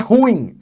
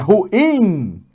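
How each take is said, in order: First: The stress is on the first syllable. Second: The stress is on the second syllable. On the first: The speaker calls it wrong. "Não é ruim" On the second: The speaker calls it right. "temos o in como tônico, como tônica"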